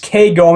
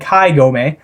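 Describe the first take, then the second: First: The first syllable sounds like 'kay'. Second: The first syllable sounds like 'kye'. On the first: The speaker calls it right. "it's K Gome" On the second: The speaker calls it wrong. "I've been saying Kai Gome"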